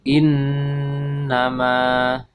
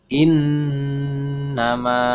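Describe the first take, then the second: The two takes are said the same way.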